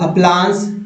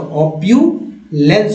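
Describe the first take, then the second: First: The second vowel is a plain 'a' sound. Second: The second vowel is a 'yu' sound. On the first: The speaker calls it wrong. "अ पढ़ा गया" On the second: The speaker calls it right. "कौन सा उच्चारण सही होगा, तो ऑप्यूलेंस होगा"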